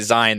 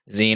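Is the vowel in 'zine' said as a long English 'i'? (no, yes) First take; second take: yes; no. First: The vowel is the long English 'i'. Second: The vowel is not the long English 'i'. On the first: The speaker calls it wrong. "e at the end, long form vowel" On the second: The speaker calls it right. "it's supposed to be pronounced zine"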